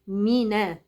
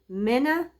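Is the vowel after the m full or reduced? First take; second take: full; reduced. First: The vowel after m is a full i. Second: The vowel after m is lazily reduced. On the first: The speaker calls it right. "ده مي" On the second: The speaker calls it wrong. "مش حلوة ابدا"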